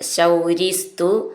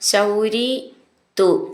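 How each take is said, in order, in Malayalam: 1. ഈ രണ്ട് വാക്കുകളും ഒന്നായി ചേർത്താണ് പറയുന്നത്. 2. ഈ രണ്ട് വാക്കുകളും വേറെ വേറെയായാണ് പറയുന്നത്.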